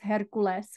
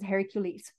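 First: The name is said in an unusual, non-English way. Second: The name is said the familiar English way. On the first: This is the name's original cosmic form. "the way that it would be pronounced in cosmic realms" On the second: This is the name as commonly known. "we, of course, know Hercules as Hercules"

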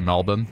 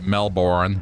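First: It is said with the local pronunciation. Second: It is said with an American pronunciation. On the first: "we say Melbourne" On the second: "Americans will say Melbourne"

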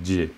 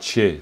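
First: The first consonant is a voiced j sound. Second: The first consonant is a voiceless ch sound. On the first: The speaker calls it right. "c'est je, clairement" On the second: The speaker calls it wrong. "Et c'est pas che"

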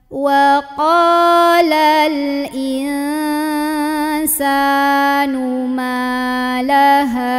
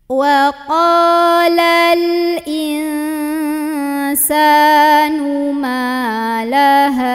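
Both takes have the same delivery.

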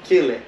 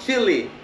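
First: The name does not sound like the spice. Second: The name sounds like the spice chili. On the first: The speaker calls it right. "that's the right way to say it" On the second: The speaker calls it wrong. "usually people say, oh, you are from Chile"

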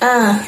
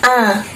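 No difference in how they are said.

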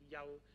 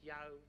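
First: The A vowel sounds dark and open. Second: The A vowel sounds flat and bright. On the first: The speaker calls it right. "Ein dunkleres A" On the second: The speaker calls it wrong. "nicht jau, nicht so flach"

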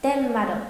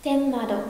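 The two takes are said the same way.

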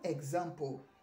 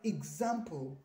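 First: The word begins with an 'eg' sound. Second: The word begins with an 'ig' sound. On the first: The speaker calls it wrong. "it is not example" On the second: The speaker calls it right. "it is example. The I sound, replaces the E during pronunciation"

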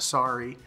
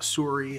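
First: It is said with an American accent. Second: It is said with a Canadian accent. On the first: The speaker calls it right. "instead of sorry" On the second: The speaker calls it wrong. "he is Canadian"

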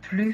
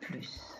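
First: The final S sound is silent. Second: The final S sound is pronounced. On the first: "on ne prononce pas le S de plus" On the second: "on prononce le S de plus"

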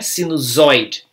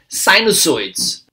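First: The first S is sounded like a Z. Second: The first S is sounded like an S. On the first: The speaker calls it wrong. "Em português, a gente pronuncia esse S como Z" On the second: The speaker calls it right. "esse S vai ser pronunciado como S mesmo"

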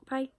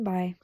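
First: It is said in an annoying voice. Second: It is said in a normal voice.

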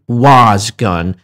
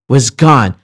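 First: The word 'was' is stressed. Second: The word 'gone' is stressed. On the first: The speaker calls it wrong. "I'm not saying was gone, because that is not going to give you the accentuated American or British pronunciation" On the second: The speaker calls it right. "I'm stressing the word gone. I'm not stressing the word was"

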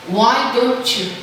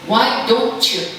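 The two takes are said the same way.

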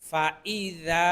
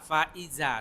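First: The 'i' sound after 'fa' is distinct. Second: The 'i' sound after 'fa' is blurred. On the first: The speaker calls it right. "এই ই এর উচ্চারণটা স্পষ্ট করতে হবে।" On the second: The speaker calls it wrong. "অনেকে বলে ফা ইজা, ফা ইজা, সম্পূর্ণ ভুল।"

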